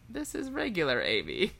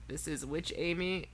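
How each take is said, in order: First: It is said in a normal voice. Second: It is said in a slightly deeper voice.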